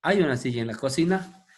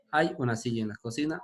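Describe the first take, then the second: First: "¿Hay una silla en la cocina?" with a rising question tune; rising question intonation. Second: Said in the usual way. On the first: Shown as a demonstration. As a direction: lift "hay" and the end as a question. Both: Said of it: "Esa es la pregunta que hacen".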